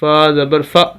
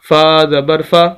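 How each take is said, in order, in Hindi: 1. छोटे स्वर को झटके से काट दिया जाता है। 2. छोटे स्वर को छोटा और सहज रखा जाता है। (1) "झटका नहीं देना, ... ऐसे नहीं पढ़ना" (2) "बिल्कुल लंबा करके नहीं पढ़ेंगे"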